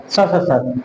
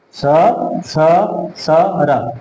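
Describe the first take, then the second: First: स, स, सर run into one word; all together. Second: स, स, स, र with gaps between; one by one. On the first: Teacher answering how the sutra joins up, said together. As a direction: blend the sibilants and r without pauses. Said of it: "एक साथ बोलेंगे तो क्या बोलेंगे इसको?". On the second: Teacher drilling the thirteenth sutra, letter by letter. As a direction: say each sibilant separately. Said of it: "एक साथ बोलेंगे तो". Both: Shown as a demonstration.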